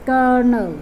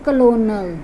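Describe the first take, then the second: First: The middle is an er sound, with no L. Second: The middle is said with a clear L sound. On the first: The speaker calls it right. "It will be changed into er sound" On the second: The speaker calls it wrong. "not colonel"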